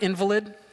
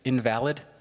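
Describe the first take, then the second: First: The stress is on the first syllable. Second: The stress is on the second syllable. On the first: "The word invalid, it's not a fun word" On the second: Something that is not valid. "if you pronounce it differently, it's invalid"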